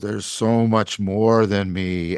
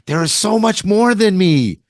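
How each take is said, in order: First: It is said in a humbled, sobered tone. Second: It is said in an awed, wondering tone. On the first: We are small and finite before reality. "oh, ... And that's the humbling and the finitude" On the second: Reality is vast and draws us beyond ourselves. "and that's the wonder, and that's the transcendence"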